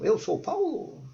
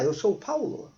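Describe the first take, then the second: First: It is said with question intonation. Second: It is said with statement intonation. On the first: The speaker is asking who he is. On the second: The speaker is telling who he is.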